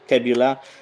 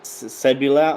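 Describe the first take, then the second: First: The name begins with a K sound. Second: The name begins with an S sound.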